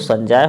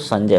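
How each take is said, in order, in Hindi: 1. दूसरे अक्षर में लंबा 'aa' स्वर है। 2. दूसरे अक्षर में छोटा 'a' स्वर है। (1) "यदि होगी तो संजय हो जाएगा" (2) "नहीं होगी तो संजय हो जाएगा"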